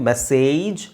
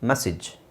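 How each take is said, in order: First: The second vowel is a long 'ay' sound. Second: The second vowel is a short 'i' sound. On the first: The speaker calls it wrong. "ಮೆಸೇಜ್ ಅಲ್ಲ" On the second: The speaker calls it right. "ಇ A ಬಂದಾಗ ಈ sound ಬರುತ್ತೆ, ಇ"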